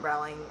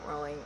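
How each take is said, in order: First: Rowling with an open first vowel, "RAU-ling"; Rowling like howling. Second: Rowling with a long O, "ROH-ling"; Rowling like rolling. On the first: Vlogger unsure of the author's name, Rowling as "RAU-ling". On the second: Vlogger unsure of the author's name, Rowling as "ROH-ling". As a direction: say Rowling to rhyme with bowling. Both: Real, not acted. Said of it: "how do you pronounce it?".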